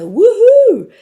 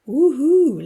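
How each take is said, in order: First: It is said loudly and energetically. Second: It is said softly and calmly.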